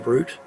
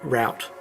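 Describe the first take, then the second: First: It is said with an Australian pronunciation. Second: It is said with an American pronunciation. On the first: "We say route in Australia" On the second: "I think Americans say route"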